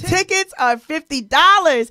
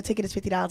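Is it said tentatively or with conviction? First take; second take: with conviction; tentatively. First: It is said with conviction and energy. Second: It is said tentatively, without conviction.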